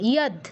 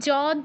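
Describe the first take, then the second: First: The word begins with a y sound. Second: The word begins with a j sound. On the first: The speaker calls it right. "ইয়দ ব্যতীত আর কোনো কিছু আমরা উচ্চারণ করবো না" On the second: The speaker calls it wrong. "ইয় এর উচ্চারণ কেউ জ করবো না"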